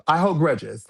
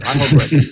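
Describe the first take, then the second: First: Said in the usual way. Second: Louder I hold grudges, grudges punched; emphatic repeat. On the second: Real, not acted. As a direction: hammer grudges home.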